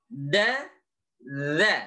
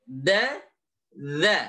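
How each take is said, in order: Both takes have the same delivery.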